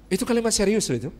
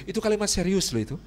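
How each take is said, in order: Both takes have the same delivery.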